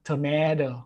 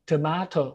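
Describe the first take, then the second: First: It is said with an American accent. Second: It is said with a British accent. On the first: "ส่วนคนอเมริกาก็จะออกเสียงว่า" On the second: "คนอังกฤษนะครับ"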